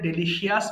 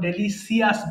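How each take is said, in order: First: The ending is said 'shee-us'. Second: The ending is said 'see-us'. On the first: "ভুল করে ডেলিশিয়াস বলি" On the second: "অথবা ডেলিসিয়াস বলি"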